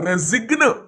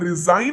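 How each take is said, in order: First: The g is pronounced, like rezign. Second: The g is silent, like rizain. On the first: The speaker calls it wrong. "రెజిగ్న్ అని పలుకుతామా" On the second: The speaker calls it right. "రిజైన్ అని పలుకుతాం"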